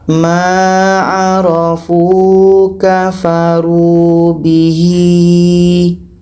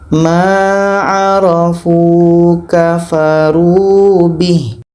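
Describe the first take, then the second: First: The last word ends with a long vowel. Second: The last word ends on a bare h sound. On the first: The speaker calls it wrong. "Tidak boleh kita panjangkan" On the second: The speaker calls it right. "kalau kita wakaf, kita matikan hanya"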